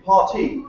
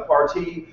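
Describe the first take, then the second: First: Parti said the British way, hard h-like start and no r: hah-tee; British pronunciation. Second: Said in the usual way. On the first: Shown as a demonstration. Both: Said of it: "if you're British, you call it Parti".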